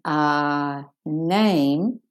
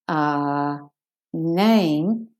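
Both takes have the same delivery.

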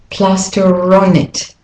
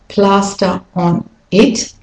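First: The words run together smoothly. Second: The words are said separately.

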